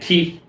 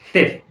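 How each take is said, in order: First: It starts with a hard, aspirated t sound. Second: It starts with the tongue between the teeth. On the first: The speaker calls it wrong. "जो हम कहते हैं थीफ, तो थीफ नहीं है" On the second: The speaker calls it right. "जबान दांतों से थोड़ी सी बाहर आई"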